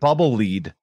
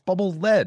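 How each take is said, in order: First: The word 'lead' rhymes with 'bead'. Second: The word 'lead' rhymes with 'bed'. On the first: It names leading or guiding something. The speaker calls it wrong. "He calls so it bubble lead during the entire thing" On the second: It names the heavy metal. The speaker calls it right. "it's lead. It's a it's a heavy thing"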